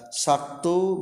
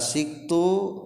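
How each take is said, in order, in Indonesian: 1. Vokal pertama adalah a. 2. Vokal pertama adalah i. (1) "dibaca saktu" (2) "kalawan tilu pembacaan cara maca sinna. Bisa dibaca siktu"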